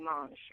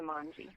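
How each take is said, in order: First: The surname is given its French pronunciation. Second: The surname is given its American pronunciation. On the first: This is how it is said in France. "in France, you got it right. It would be mange" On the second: This is how it is said in the United States. "here in the United States, we've changed it to Monge"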